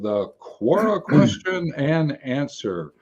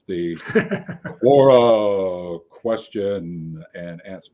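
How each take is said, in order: First: It is said in a normal speaking voice. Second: It is said in a put-on deep announcer voice.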